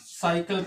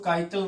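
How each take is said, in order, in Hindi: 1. यह शब्द S ध्वनि से शुरू होता है। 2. यह शब्द K ध्वनि से शुरू होता है। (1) "बल्कि साइकिल पढ़ना है" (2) "इसको काइकल नहीं"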